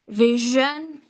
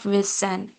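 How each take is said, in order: First: The middle consonant is a buzzing 'zh' sound. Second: The middle consonant is not a 'zh' sound. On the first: The speaker calls it right. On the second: The speaker calls it wrong.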